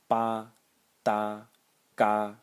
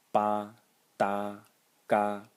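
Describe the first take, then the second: No difference in how they are said.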